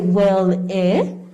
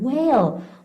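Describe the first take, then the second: First: The word ends with an extra vowel sound. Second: The word ends on the L sound. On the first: The speaker calls it wrong. "we don't say whale eh" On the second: The speaker calls it right. "the E is quiet"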